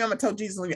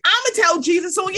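First: Softer, matter-of-fact threat; understated threat. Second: High, fast, insistent threat; escalated mock threat. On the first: Acted. Warning whoever comes after her, understated and soft. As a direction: toss off the threat softly. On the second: Threatening to tell Jesus, high rushed mock outburst. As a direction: repeat it higher and much faster.

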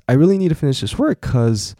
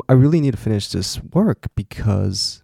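First: "'cause" said short, as one syllable; casual one-syllable "'cause"; clipped 'cause. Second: "because" said in full, both syllables; full two-syllable "because". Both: Shown as a demonstration. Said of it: "我刚刚不小心讲because".

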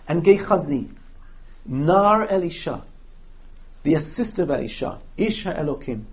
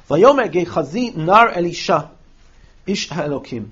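First: Teacher spelling out the chain from Gehazi to "ish ha'elokim"; stress the hierarchy. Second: Said in the usual way. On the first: Shown as a demonstration. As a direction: lay out each rank with its own falling stop. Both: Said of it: "You hear the hierarchy there?".

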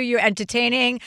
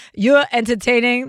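First: Said in the usual way. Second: Put-on "You're entertaining" with a light Brooklyn accent, a bit louder; a hint of Brooklyn on "You're entertaining". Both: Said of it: "That's my Brooklyn accent".

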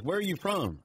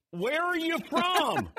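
First: Said in the usual way. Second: Slow, high-pitched yelled question; punchline yelled high and drawn out; mock yell. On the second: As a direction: holler it slowly, stretching every word. Joke punchline, question repeated louder, drawn out.

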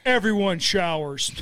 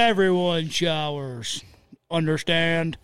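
First: Slow stern coach order; gym teacher voice. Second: Even slower, drawn-out coach order; gym teacher voice. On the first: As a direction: lay down the locker-room rule. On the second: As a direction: stretch out "Everyone showers" stern and slow. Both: Pretend. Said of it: "like my seventh grade gym teacher".

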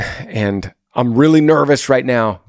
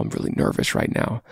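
First: Said in the usual way. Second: Whispered, much softer confession; a hushed, vulnerable whisper to the girl; nervous whisper. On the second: Shown as a demonstration. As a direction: breathe it out like a scared confession. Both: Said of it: "being as vulnerable as possible".

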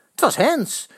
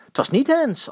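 First: Shouting. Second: Shouting back. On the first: Fans arguing with rival fans, shouted insistence. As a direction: call out that it was handball. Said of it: "roepen Eddy". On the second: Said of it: "antwoorden de Vitessers". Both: A narrator's reading.

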